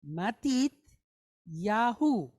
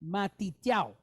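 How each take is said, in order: First: "Matit", pause, "Yahu" ending in hoo; four full syllables. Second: "Matityahu" clipped to ma-teet-YOW; shortened Israeli pronunciation. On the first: Teacher reading the son's name, all syllables of "Matit Yahu". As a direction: say "Matit Yahu" fully, ma-tit-ya-hu. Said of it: "it's four syllables". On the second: Teacher showing Israeli usage, "Matityahu" as Matityow. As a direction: drop the h so "Matityahu" ends in yow. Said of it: "they would pronounce his name". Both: Shown as a demonstration.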